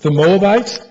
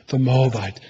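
First: "the Moabite" raised and louder, rising at the end; "the Moabite" called out as a loud ceremonial proclamation; proclaiming. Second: "the Moabite" softer and lower, falling gently; "the Moabite" spoken softly as a loving commitment; tender. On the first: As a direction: announce "the Moabite" like a formal declaration. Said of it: "Let me read it to you". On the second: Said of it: "No, he's saying". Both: Shown as a demonstration.

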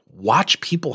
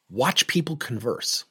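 First: Said in the usual way. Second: Slow unvoiced whisper, drawing people in. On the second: Shown as a demonstration. Coach urging listeners to watch, in a slow whisper. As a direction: breathe the words out slowly, almost secret.

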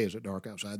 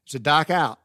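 First: Said in the usual way. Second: Louder mock Yankee accent, "dark" as dahk. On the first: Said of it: "Yankees don't say". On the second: Imitating Yankees asking about nightfall, r-less Yankee accent. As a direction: punch it out like a Yankee, R dropped. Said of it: "they'll say".

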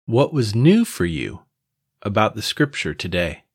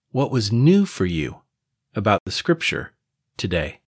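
Both takes have the same delivery.

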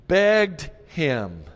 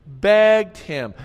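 First: Begged said with weight; emphatic begged. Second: Begged repeated higher and louder; louder emphatic begged. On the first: Pastor stressing the verse's word, emphatic. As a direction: land the word Begged firmly. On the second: Pastor driving home the word, louder emphasis. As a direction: hit Begged harder the second time. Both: Shown as a demonstration. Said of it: "it was more emphatic".

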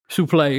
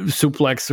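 First: Suplex said "soo-PLAY", silent x; French-style pronunciation. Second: Said in the usual way. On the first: Real, not acted. Correcting himself on the wrestling move, suplex as "soo-play". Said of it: "excuse me". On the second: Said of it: "Suplex, excuse me".

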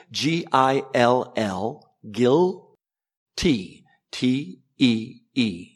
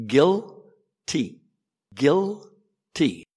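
First: "G I L L, guilty, T E E" spelled out slowly letter by letter. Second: Said in the usual way. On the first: Shown as a demonstration. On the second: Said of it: "I'll say it for you".

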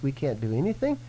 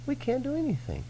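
First: Said in the usual way. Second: Mock whine. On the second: Mock whiny high repeat of phrase.

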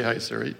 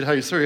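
First: "Hey, Siri." whispered low and soft, no voice; hushed whisper to keep Siri from answering; whispered so the phone won't wake. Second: Said in the usual way. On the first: Shown as a demonstration. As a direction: breathe "Hey, Siri" under your breath. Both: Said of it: "and I didn't say".

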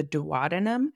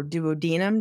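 First: Duodenum as doo-WAH-duh-num; alternative pronunciation. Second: Duodenum as doo-oh-DEE-num; alternative pronunciation. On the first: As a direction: stress the second syllable of duodenum, WAH. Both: Shown as a demonstration. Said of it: "depending on how you say it".

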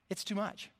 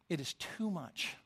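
First: Said in the usual way. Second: Said slower and much softer, stress on too; soft, slowed repeat weighing "too"; quiet, slow emphasis. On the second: Retold or imitated.

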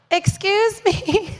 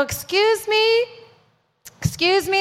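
First: High, slow, pointed excuse me; insistent call-out. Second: Polite call-out. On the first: Preacher calls high and slow again to an agent who looked away. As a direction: refuse to be ignored, draw it out. Calling again after being ignored. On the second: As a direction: stretch it out sweetly to catch her attention. Calling out to an airline agent. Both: Retold or imitated.

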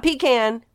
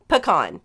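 First: PECAN as PEE-can, with a long ee; wrong pronunciation. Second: PECAN as puh-KAHN, drawn out; correct pronunciation. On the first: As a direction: say "pecan" as PEE-kan, the rejected way. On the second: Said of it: "Not pecan, but". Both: Shown as a demonstration.

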